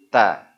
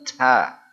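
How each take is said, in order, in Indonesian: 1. Konsonan itu memiliki hembusan nafas yang ringan. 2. Konsonan itu memiliki hembusan nafas yang kuat. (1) "Jadi ta" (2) "bukan ta ... itu berlebihan, tidak boleh"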